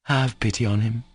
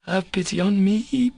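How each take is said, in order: First: Said in the usual way. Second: High-pitched reproachful question rising on "me"; bitter reproach. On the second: A narrator's reading. Katya turns Alyosha's plea back on him, bitterly reproachful. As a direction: throw it back bitterly, voice climbing. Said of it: "Katya said with bitter reproach".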